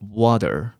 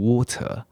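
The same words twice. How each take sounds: First: It is said with an American accent. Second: It is said with a British accent. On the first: "美式英文念water" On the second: "英国人的水念得很奇怪哦，念成water"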